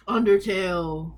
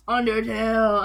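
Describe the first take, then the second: First: Slow announcement. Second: Louder announcement. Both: Shown as a demonstration. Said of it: "announcing next album".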